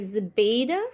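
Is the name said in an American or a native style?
American. The name is said in an American style. "they may say like Zubaida, like you don't like the sound of it"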